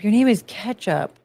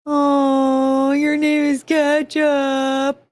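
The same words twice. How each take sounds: First: Said in the usual way. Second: "Ketchup" cooed higher and slow; your name is Ketchup sung out to a puppy, higher and slower. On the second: Real, not acted. Coos dog's name after a laugh.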